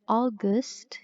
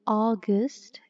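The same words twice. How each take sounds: No difference in how they are said.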